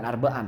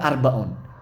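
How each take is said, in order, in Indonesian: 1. Kata itu berakhir dengan bunyi 'an'. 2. Kata itu berakhir dengan bunyi 'un'. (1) "bukan arba'an ya, salah cetak itu" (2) "Seharusnya arbaun"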